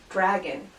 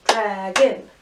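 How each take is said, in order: First: Said in the usual way. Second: "Dragon" in two beats, dra-gon, rising at the end; chunked into syllables. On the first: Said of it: "We're gonna start with syllables". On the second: Shown as a demonstration. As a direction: punch out both syllables of "Dragon". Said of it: "chunk things into syllables".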